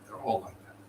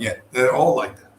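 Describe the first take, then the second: First: Whispered aside. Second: Said in the usual way. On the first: Shown as a demonstration. Teller muttering about scammer cats, soft whispered repeat. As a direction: whisper the repeat much softer.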